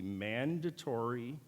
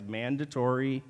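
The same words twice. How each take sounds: First: Said in the usual way. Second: "mandatory" pushed louder, pitch climbing; emphatic MANDATORY. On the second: Real, not acted. Speaker warning students about a required lecture, emphasizing "mandatory" loudly. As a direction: lean hard on the word "mandatory". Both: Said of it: "and I emphasize mandatory".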